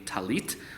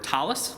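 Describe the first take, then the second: First: The word ends with a t sound. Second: The word ends with an s sound.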